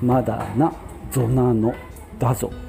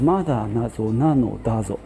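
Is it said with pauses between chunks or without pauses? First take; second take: with pauses; without pauses. First: It has pauses between the three chunks. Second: It is said in one go without pauses.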